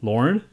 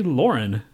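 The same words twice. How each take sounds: First: Lauren run together as "Lorn"; one-syllable pronunciation. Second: Lauren in two beats, "LOR-en"; two-syllable pronunciation. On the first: Showing a friend either way works, Lauren as one syllable. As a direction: squeeze Lauren into a single beat. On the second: Showing a friend either way works, Lauren as two syllables. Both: Shown as a demonstration. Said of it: "You could say it either way".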